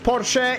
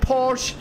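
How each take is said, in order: First: The name is said the German way. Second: The name is said the English way.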